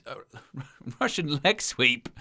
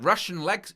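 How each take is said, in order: First: Laughs through the retry; chuckling correction, softer; laughing. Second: Said in the usual way. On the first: Real, not acted. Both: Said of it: "I'll get there in the end".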